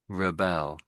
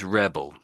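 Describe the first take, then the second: First: The stress is on the second syllable. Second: The stress is on the first syllable. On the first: It names the action of fighting back. "As a verb, it's pronounced" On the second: It names a person who fights. "As a noun, it's rebel"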